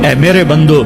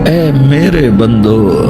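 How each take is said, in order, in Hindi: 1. यह सादा, सामान्य लहजे में कहा गया है। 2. यह स्नेह भरे, प्यार भरे लहजे में कहा गया है।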